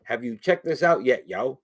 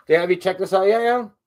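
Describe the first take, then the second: First: Slower, more measured question in a usual pitch; talking slower. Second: Quick, higher, louder question; too quick. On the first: Shown as a demonstration. Host repeating his question to viewers, talking slower. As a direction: ease off and space the words out. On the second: Real, not acted. Host asking viewers about his stuff, too quick. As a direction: rattle it out with raised pitch. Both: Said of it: "I need to talk slower".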